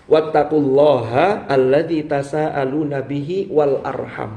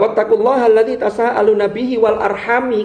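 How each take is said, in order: First: The last word ends with an 'a' vowel. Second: The last word ends with an 'i' vowel. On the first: The last word is joined to the name of God. "Kalau dibaca nasab" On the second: The last word is joined to the nearer pronoun. "Kalau wal arhami ini berarti diatofkan pada bihi"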